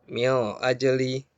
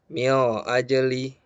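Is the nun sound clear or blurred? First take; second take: blurred; blurred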